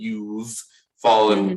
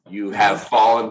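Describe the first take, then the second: First: "You have" is contracted to "you've". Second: "You have" is said as two full words.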